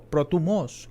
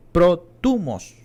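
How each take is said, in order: First: Protumos with the accent on the last O; stress on final O. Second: Protumos, stress on the TU, slow and loud; stress on TUMOS's first syllable. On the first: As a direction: say protumos as pro-tu-MOS, slowly. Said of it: "con acento en la O". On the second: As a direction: punch the middle syllable of protumos, drawn out. First of two pronunciations shown. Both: Shown as a demonstration.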